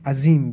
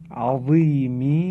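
First: The middle consonant is a plain, light z. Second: The middle consonant is a heavy, emphatic z. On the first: It means a stubborn enemy. The speaker calls it wrong. "با زه فارسی تلفظ کنه" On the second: It means great. The speaker calls it right. "این حرف عظیم با وا هست"

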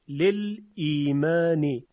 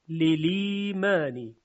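First: The glottal stop after the l is pronounced. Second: The glottal stop is dropped; the l takes its vowel. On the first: This is the form before the rule applies. "لل لام ساکن و بعدش همزه قطع ایمان" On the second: This is the form after the vowel transfer rule. "لام میشه مکسور و همزه حذف میشه"

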